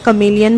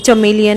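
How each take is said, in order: First: The word begins with a hard k sound. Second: The word begins with a ch sound. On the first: The speaker calls it right. "त्याला कमेलियन म्हणतात" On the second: The speaker calls it wrong. "मी normally चमेलियन असं म्हटले"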